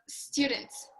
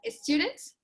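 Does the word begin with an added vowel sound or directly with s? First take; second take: directly s; added vowel. First: The word starts directly with the s sound. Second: An extra e sound comes before the s. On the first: The speaker calls it right. "instead of" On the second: The speaker calls it wrong. "we used to pronounce like a lot of e in these kind of words"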